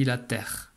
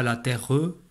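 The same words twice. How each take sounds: First: Said in the usual way. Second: « la terre E » avec le E muet prononcé à tort; E final prononcé. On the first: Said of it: "on dit la terre". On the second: Shown as a demonstration. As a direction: dire « terre E » en faisant sonner le E final. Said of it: "on ne dit pas la terre E". (prononciation fautive « la terre E », E final audible)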